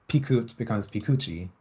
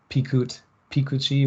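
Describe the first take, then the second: First: "pikut" then "pikuchi" with the stress moving to a different syllable; stress shift demo. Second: Pikut, pikuchi with stress held on the same syllable, no shift; same stress both forms. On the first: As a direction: show the stress jumping when the suffix is added in "pikuchi". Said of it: "the stress shifts". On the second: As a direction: say "pikut" then "pikuchi" keeping the stress on one fixed syllable. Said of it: "where there's no shift". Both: Shown as a demonstration.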